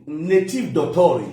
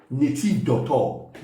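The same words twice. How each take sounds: First: "Native doctor" drawn out slowly for a learner; patient slow repeat of "Native doctor"; slow careful native doctor. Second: "Native doctor" said slowly, every syllable spelled out; slow teacher's correction of "Native doctor"; slow careful native doctor. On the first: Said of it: "not medical doctor". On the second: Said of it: "Native doctor. Capito?". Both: Shown as a demonstration.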